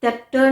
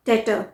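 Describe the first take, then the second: First: टेप्टर with a P sounded before T; wrong pronunciation. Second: टेटर said as "detter"; silent B. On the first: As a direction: say टेप्टर as "depter". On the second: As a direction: model टेटर with only a T in the middle. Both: Shown as a demonstration. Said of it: "टेप्टर नहीं".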